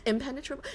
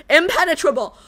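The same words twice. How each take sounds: First: "impenetrable?" soft and questioning, unsure of the word; unsure try. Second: "Impenetrable." said firmly with a laugh, falling end; confident word. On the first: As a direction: test "impenetrable?" quietly with a rise. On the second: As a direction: land "Impenetrable." proudly. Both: Shown as a demonstration.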